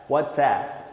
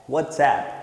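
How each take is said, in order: No difference in how they are said.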